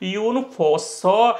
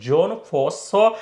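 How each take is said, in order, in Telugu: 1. మొదటి పేరు Y ధ్వనితో మొదలవుతుంది. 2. మొదటి పేరు J ధ్వనితో మొదలవుతుంది.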